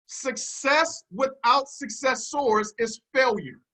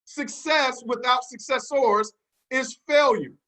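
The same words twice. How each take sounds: First: Each word weighed, slow and deliberate; slow emphatic maxim. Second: FAILURE landed with a firm fall; slow repeated maxim. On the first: Coach teaching his team a motto, slow and deliberate. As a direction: spell it out slowly for the class to write. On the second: Speaker repeating the motto for note-takers, measured and slow. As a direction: repeat it slowly so they can copy. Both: Shown as a demonstration. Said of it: "Write it down, class".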